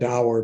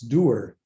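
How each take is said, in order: First: The word is said with an American pronunciation. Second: The word is said with a Scottish pronunciation. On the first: "In this country, we call it dour" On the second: "but in Scotland, it's dour"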